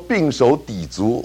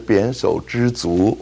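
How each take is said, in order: First: The first syllable sounds like bing. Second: The first syllable sounds like bian. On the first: The speaker calls it wrong. "你念错了" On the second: The speaker calls it right. "这是扁手知足啊"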